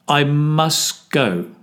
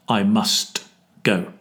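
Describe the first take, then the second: First: The T at the end of must is dropped. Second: The T at the end of must is pronounced. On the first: The speaker calls it right. "Here the T drops from must" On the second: The speaker calls it wrong.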